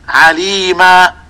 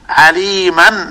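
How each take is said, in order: First: The word ends in a long 'aa' sound. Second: The word ends in a short 'an' sound. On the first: The reader stops on this word. "إذا وقفت على كلمة عليما تقول عليما، أبدلت التنوين المنصوب ألفا" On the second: The word is joined to the next word. "فأظهرت النون الساكنة الناتجة عن التنوين في كلمة عليما حالة وصلها"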